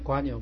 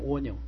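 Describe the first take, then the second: First: The first syllable is pronounced 'gua'. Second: The first syllable is pronounced 'wo'. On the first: This is how the speaker's own side reads it. "瓜牛的瓜，我们不是念瓜牛吗" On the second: This is how the other side reads it. "他们念蜗牛"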